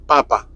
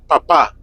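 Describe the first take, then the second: First: "papa" as PA-pa, second syllable light; stress on first syllable. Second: "papa" as pa-PA, final A stressed; stress on last syllable. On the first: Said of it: "Just papa". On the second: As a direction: land hard on the second PA of "papa". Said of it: "the emphasis on this word". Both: Shown as a demonstration.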